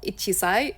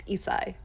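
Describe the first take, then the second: First: Ichisai, said as the wrong reading, every syllable clear; the teacher shows ichisai, the reading to avoid. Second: Isai said with the i run straight into sai; isai, short and clean, the proper reading; correct reading. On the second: Teacher giving learners the right reading, calm and clear. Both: Shown as a demonstration. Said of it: "one years old is not ichisai".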